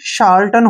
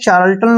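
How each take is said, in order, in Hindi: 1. इस शब्द की शुरुआत 'sh' की आवाज़ से होती है। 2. इस शब्द की शुरुआत 'ch' की आवाज़ से होती है। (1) "सी का उच्चारण श के रूप में करेंगे" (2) "इसको हम अक्सर चार्ल्टन पढ़ते हैं जो कि गलत है"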